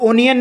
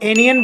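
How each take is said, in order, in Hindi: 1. शब्द की शुरुआत 'o' स्वर से होती है। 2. शब्द की शुरुआत 'a' स्वर से होती है। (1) "ओनियन नहीं" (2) "एनियन बोलना सही है"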